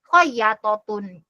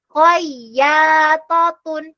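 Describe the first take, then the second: First: The vowel after 'ya' is cut short. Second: The vowel after 'ya' is held long. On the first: The speaker calls it wrong. "ya-nya di sini panjang tapi dibacanya khoyatotun" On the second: The speaker calls it right. "Perhatikan panjang pendeknya"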